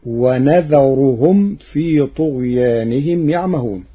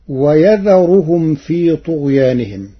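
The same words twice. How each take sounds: First: ونذرهم with nun, wa-nadharuhum; ونذرهم starting with nun; Warsh reading. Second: ويذرهم with ya, wa-yadharuhum; ويذرهم starting with ya; Hafs reading. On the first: Teacher reciting Warsh's variant to the class. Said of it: "بنون العظمة". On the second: Teacher quoting the standard reading, recited. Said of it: "قرأ ورش كلمة ويذرهم". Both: Shown as a demonstration.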